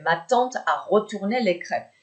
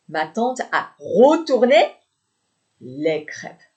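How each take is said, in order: First: Said in the usual way. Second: "retourné" high, loud and rising, then a pause; slow teaching emphasis on "retourné", object held back; stress on retourné. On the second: Shown as a demonstration. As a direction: hit "retourné", hang, then drop to finish. Teacher repeats, highlighting verb before object.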